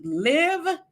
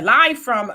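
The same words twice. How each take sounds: First: "Live" read with a short i, like "give"; "Live" said as liv, rhyming with give; misread name. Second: "Live" fixed to a long i, like "five"; "Live" said as lyve, rhyming with drive; corrected name. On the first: Reading a viewer's name aloud, "Live" said liv. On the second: Correcting a viewer's name, "Live" said lyve. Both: Real, not acted. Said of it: "I'm sorry".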